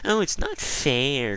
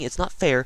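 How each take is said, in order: First: It is said in a whiny, crybaby tone. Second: It is said in a plain, serious tone.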